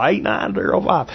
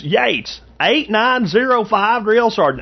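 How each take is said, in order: First: Said in the usual way. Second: Much higher, slow Southern drawl; Yates's Southern drawl. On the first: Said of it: "What's Yates's last four?". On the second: Retold or imitated. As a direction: drawl out the number like the recruit Yates. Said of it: "that dude's voice was so specific".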